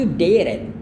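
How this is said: It is said in an American accent. "ini aksen Amerika"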